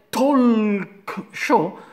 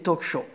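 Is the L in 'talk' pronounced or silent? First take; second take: pronounced; silent. First: The L in talk is clearly pronounced. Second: The L in talk is silent. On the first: The speaker calls it wrong. "lo dicono con la L" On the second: The speaker calls it right. "si dice talk senza, senza la L"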